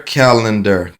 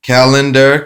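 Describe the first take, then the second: First: Said in the usual way. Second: Calendar called out higher and louder; called-out keyword. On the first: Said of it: "repeat of card keyword". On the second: Shown as a demonstration. Teacher flipping the phonics card, Calendar called out loud and high. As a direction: announce the card word Calendar loudly and high. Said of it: "phonics card keyword drill".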